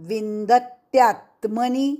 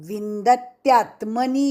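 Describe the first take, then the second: Both takes have the same delivery.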